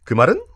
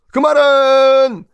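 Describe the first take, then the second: First: Said in the usual way. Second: "그 말은" said slow, much higher and louder, stretched; suspenseful teasing "그 말은"; drawn-out rhetorical question. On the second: Shown as a demonstration. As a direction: stretch out "그 말은" high and loud for suspense.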